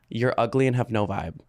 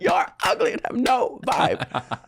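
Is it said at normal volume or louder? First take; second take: normal; louder. First: It is said at normal volume. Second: It is said louder, with more energy.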